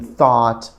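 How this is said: It is said with a native English pronunciation. The speaker calls it right. "tentar fazer uma mímica da pronúncia correta"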